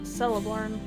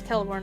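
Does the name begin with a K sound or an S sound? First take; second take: S sound; K sound. First: The name begins with an S sound. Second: The name begins with a K sound. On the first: The speaker calls it wrong. "never of S" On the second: The speaker calls it right. "C always has a value of K"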